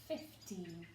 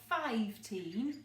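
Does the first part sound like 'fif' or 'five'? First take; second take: fif; five. First: The first part sounds like short fif. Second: The first part sounds like the word five. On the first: The speaker calls it right. "we say fifteen" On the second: The speaker calls it wrong. "we don't say five-teen"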